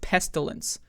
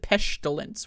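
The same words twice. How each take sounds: First: The middle consonant is a plain s sound. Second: The middle consonant is an sh sound. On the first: The speaker calls it right. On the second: The speaker calls it wrong.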